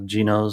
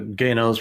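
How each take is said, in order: First: The name is pronounced as English spelling suggests. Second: The name is pronounced the Indonesian way. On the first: This is how the spelling reads in English. "what it looks like in uh, English" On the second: This is how people in the country say it. "probably is what they say in Indonesian"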